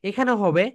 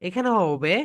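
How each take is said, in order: The two takes are said the same way.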